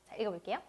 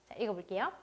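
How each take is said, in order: The two takes are said the same way.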